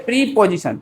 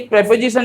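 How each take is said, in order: First: प्रीपोजिशन with a long "pree" first; teacher's pronunciation. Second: प्रीपोजिशन as prep-o-zishan, short E first; short first vowel in प्रीपोजिशन; usual pronunciation. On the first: Retold or imitated. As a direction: stretch the first vowel of प्रीपोजिशन to EE. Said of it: "वो बोलते थे". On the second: Shown as a demonstration. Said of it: "ये प्रीपोजिशन नहीं".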